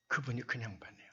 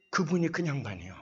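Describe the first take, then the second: First: Hushed aside. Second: Said in the usual way. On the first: Retold or imitated. Repeats the casual introduction, hushed.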